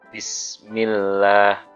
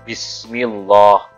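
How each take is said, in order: First: The L sound is light and thin. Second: The L sound is heavy and thick. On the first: The speaker calls it right. "kalau sebelumnya kasroh maka dibaca tipis" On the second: The speaker calls it wrong. "Bukan Bismillah, bukan"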